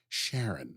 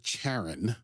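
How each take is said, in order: First: The name begins with a soft SH sound. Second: The name begins with a hard K sound. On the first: "I've always pronounced that Sharon" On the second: "It's a hard C"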